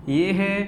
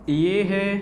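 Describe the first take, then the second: No difference in how they are said.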